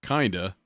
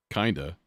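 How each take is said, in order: Both takes have the same delivery.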